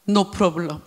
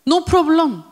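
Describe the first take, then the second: First: Low, soft "No problem"; softly offered answer, voice dropped; quiet answer. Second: Higher, clearer "No problem"; raised restatement. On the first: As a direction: say it low and understated. First softly offered answer to question. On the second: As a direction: lift the voice to declare it. Same answer repeated, now declared. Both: Shown as a demonstration.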